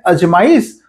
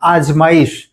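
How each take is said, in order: First: The first vowel is short. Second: The first vowel is long. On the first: The speaker calls it wrong. "और एक शब्द है अजमाइश" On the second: The speaker calls it right. "इसे कहते हैं आजमाइश"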